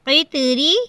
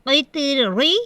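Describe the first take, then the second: First: The r is pronounced thin and light. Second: The r is pronounced thick and heavy. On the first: The speaker calls it right. "देखें बारीक पढ़ी जा रही है रॉ।" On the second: The speaker calls it wrong. "अगर हम इसे मोटा पढ़ते हैं ... ये तरीका गलत है"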